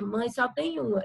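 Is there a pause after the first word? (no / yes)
no. It flows as one phrase with no pause. There is only one mother. "aqui ele está dizendo que a mãe, que mãe só tem uma"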